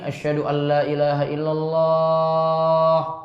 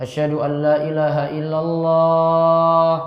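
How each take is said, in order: No difference in how they are said.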